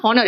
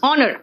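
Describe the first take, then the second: First: Honor said as "HON-er" with audible H; H wrongly sounded. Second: Honor said as "ON-er"; silent H. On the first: Teacher showing pupils the common mistake, honor with H sounded. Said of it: "It is not honor". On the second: Teacher correcting pupils, honor with a silent H. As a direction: start honor on the vowel, dropping the H. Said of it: "it is honor". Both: Shown as a demonstration.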